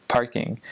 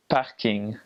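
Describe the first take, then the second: First: Said in the usual way. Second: "parking" as a French borrowed word, like "pah-king"; French pronunciation of "parking". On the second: Shown as a demonstration. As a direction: say "parking" the French way, without the English R. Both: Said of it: "they also invented the word".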